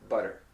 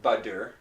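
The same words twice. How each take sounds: First: "butter" with a light, quick tap; flapped T in butter. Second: "butter" with a full D, like "budder". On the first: Teacher correcting the D version, "butter" with a flap. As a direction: flick the T of "butter". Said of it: "it's butter". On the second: Teacher rejecting the D version, "butter" as budder. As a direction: press a real D into "butter". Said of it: "And it's not butter". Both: Shown as a demonstration.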